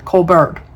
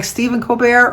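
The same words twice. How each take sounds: First: Colbert as COAL-burt, L and T sounded; anglicised pronunciation. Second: Colbert as koh-BAIR, silent L and T; French-style pronunciation. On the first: Asking Janet about the surname, Colbert said COAL-burt. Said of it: "or if you have it". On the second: Asking Janet about the surname, Colbert said koh-BAIR. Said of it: "if you do it like". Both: Shown as a demonstration.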